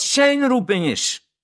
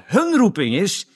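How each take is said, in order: First: "zijn" held high and long before "roeping"; stress on ZIJN. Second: "hun" jumps up high before "roeping"; stress on HUN. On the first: Preacher setting his calling against theirs, stress on ZIJN. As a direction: lift and stretch "zijn". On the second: Preacher on why believers don't know theirs, stress on HUN. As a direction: punch "hun" with a high pitch. Contrasts their calling with his. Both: Shown as a demonstration.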